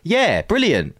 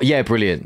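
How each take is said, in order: First: It sounds sincere and genuinely pleased. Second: It sounds sarcastic and curt.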